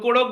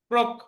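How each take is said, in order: First: A vowel splits the opening into two syllables. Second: It begins with a tight 'kr' consonant cluster. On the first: The speaker calls it wrong. "কেউ কোড়ক বলবেন না" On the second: The speaker calls it right.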